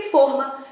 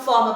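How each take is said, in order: First: Forma with a closed o: FÔR-ma. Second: Forma with an open o: FÓR-ma. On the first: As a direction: round the o of forma, as for a circumflex. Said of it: "eu coloco o circunflexo". (forma com o fechado, fôrma) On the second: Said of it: "não se acentua". (forma com o aberto, fórma) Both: Shown as a demonstration.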